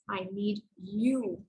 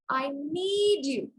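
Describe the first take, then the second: First: The stress falls on the word you. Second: The stress falls on the word need. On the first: This person is needed, not someone else. "I want to stress on the third word in the sentence" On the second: It is a need, not merely a want. "I'm going to stress the second word"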